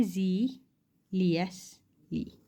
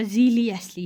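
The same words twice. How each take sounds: First: ज़ीलियसली drawn out very slowly; teacher's slow demo of ज़ीलियसली; slow model word. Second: Said in the usual way. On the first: Shown as a demonstration. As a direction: sound out ज़ीलियसली syllable by syllable. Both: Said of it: "यहाँ पे ये word देखो".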